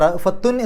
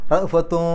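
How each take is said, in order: First: The final n is pronounced clearly. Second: The final n is hidden and nasalized. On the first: The speaker calls it wrong. "റഫത്തുൻ എന്ന് പറയില്ല" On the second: The speaker calls it right. "ആ നൂനിനെ അവ്യക്തമാക്കുക"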